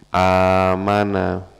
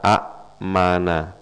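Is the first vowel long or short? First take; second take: long; short. First: The first vowel is drawn out long. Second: The first vowel is short and cut off. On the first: This is the form actually used. "a-nya panjang kan ya?" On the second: This is the underlying original form. "Aslinya adalah a-mana"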